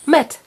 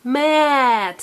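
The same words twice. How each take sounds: First: Short, quick "Met"; said fast. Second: "Mat" drawn out long; said slowly. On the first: Teacher showing a child the fast word, quick. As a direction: cut "Met" to a brief syllable. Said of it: "Now say it fast". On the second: Teacher correcting a child's quick take, drawn out. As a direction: stretch "Mat" out sound by sound. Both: Shown as a demonstration.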